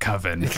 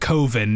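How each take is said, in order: First: The first vowel sounds like the one in oven. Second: The first vowel sounds like the one in go. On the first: The speaker calls it wrong. "because that sounds like oven and that sounds stupid" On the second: The speaker calls it right. "He insists that his movie is called Coven"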